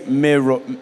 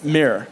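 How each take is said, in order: First: It is said in a British accent. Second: It is said in an American accent. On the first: "they don't say mirror" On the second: "It's mirror. So it's like not even a full word"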